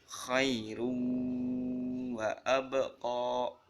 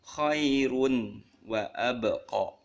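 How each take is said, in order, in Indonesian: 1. Huruf n menyatu dengan w dengan dengung yang ditahan. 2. Huruf n dibaca biasa, tanpa dengung yang ditahan. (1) "Tanwinnya dibaca dengung dan ditahan" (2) "nggak boleh dibaca"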